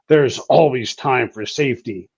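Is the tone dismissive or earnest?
earnest. It is said in an earnest, sincere tone. Safety procedures must always be followed. "folks in garrison, folks back in the rear, they'll say"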